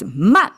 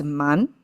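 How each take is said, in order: First: "man" short and loud, dropping in pitch; forceful "man" with a sharp downward tone; falling tone. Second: "man" with the pitch climbing; rising tone. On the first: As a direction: hit "man" hard on a falling tone. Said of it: "fallen tone". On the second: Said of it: "is a rising tone". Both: Shown as a demonstration.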